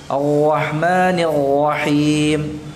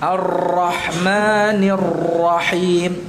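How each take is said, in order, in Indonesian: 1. R-nya digetarkan di tenggorokan seperti ghain. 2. R-nya digetarkan kuat dan terlalu lama. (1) "seperti orang yang cadel, gimana kadang ra-nya diubah menjadi ghain" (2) "Ini getarannya berlebihan"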